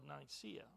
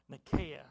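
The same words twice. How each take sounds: First: "Nicaea" said with a soft s in the middle, nye-SEE-uh; alternative pronunciation. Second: "Nicaea" said with a hard k, nih-KAY-uh; alternative pronunciation. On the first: Preacher naming the church council, "Nicaea" as nye-SEE-uh. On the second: Preacher offering another way to say it, "Nicaea" as nih-KAY-uh. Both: Shown as a demonstration. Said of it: "properly pronounce that".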